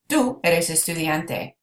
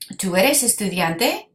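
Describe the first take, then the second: First: The voice stays level or falls at the end. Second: The voice rises at the end. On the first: It is a statement. "we could include the tú and say" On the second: It is a question. "raise your voice up at the end"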